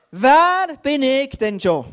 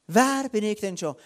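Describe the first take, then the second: First: Loud, drawn-out exclamation of "who am I anyway?"; emphatic self-doubting protest. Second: Said in the usual way. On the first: Acted. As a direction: stretch WER out, high and loud, then fall through the question. Acts out Gideon's self-doubting protest.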